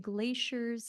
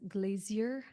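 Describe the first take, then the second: First: The word is said with an American accent. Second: The word is said with a British accent.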